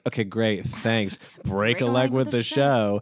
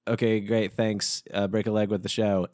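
First: It is said in a snotty, sarcastic tone. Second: It is said in a plain, neutral tone.

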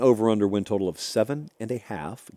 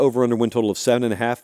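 First: The phrase is spoken more slowly. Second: The phrase is spoken quickly. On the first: The speaker calls it right. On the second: The speaker calls it wrong.

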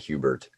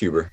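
First: The name ends with a t sound. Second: The name ends without a t sound. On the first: The speaker calls it wrong. "everyone likes to put a T on it. I'm like, no, it's not Hubert" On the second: The speaker calls it right. "Nah, it's just Huber"

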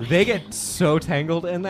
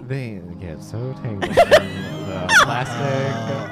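First: It is said in a plain voice. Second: It is said in a sexy voice.

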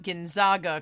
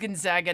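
First: The middle vowel sounds like the vowel in 'Zogs'. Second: The middle vowel sounds like the vowel in 'Zags'. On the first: The speaker calls it wrong. "not Gonzaga, ... not the Zogs" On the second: The speaker calls it right. "it is Gonzaga, ... because it's the Zags"

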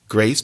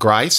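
First: The vowel sounds like the 'ay' in day. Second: The vowel sounds like the 'i' in wide. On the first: "not grace" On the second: "A pronounced more like I"

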